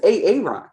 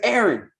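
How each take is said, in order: First: The name is pronounced in an odd way. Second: The name is pronounced the usual way. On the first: The name's owner does not recognize it. The speaker calls it wrong. "somebody mispronounces your name" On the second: The name's owner recognizes it. The speaker calls it right. "my name is Aaron"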